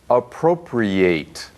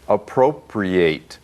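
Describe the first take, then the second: First: The final syllable is said like 'ate'. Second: The same.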